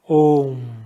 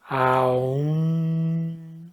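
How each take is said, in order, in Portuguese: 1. A vogal é um único som de o. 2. A vogal desliza de a para u. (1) "o A mais U vira O" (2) "a pronúncia correta é Aum"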